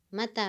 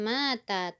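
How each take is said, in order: First: The vowel after the m is kept short. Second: The vowel after the m is drawn out long. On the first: The speaker calls it right. "mimnya dipendekkan" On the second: The speaker calls it wrong.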